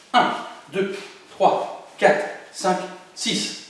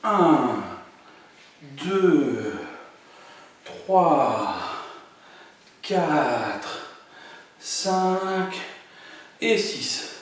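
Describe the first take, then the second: First: Very fast counting. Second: Slow, spaced-out count. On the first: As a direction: rattle off the count, quick and clipped. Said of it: "Et encore plus vite". (comptage très rapide) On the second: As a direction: give each number time. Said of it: "on finit en refaisant doucement". (comptage lent et posé) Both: Shown as a demonstration.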